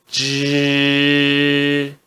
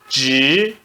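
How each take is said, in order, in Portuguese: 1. A sílaba é pronunciada com o primeiro tom. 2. A sílaba é pronunciada com o segundo tom. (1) "No primeiro tom" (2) "No segundo tom"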